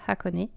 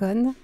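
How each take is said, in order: First: The word ends with a clearly pronounced final vowel. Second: The word ends on a nasal sound, no final vowel. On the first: The speaker calls it right. "c'est vrai qu'il se prononce Hakone" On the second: The speaker calls it wrong. "on peut le lire"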